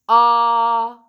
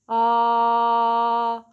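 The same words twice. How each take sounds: First: The vowel starts abruptly with a hard, louder onset. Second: The vowel starts cleanly, neither breathy nor abrupt. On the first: "do the glottal attack" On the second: "practice a balanced between the two"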